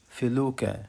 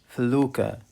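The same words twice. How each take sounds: The two takes are said the same way.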